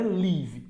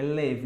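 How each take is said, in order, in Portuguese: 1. A vogal tem som de 'ee' longo. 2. A vogal tem som de 'i' curto. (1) "não é live" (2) "é live"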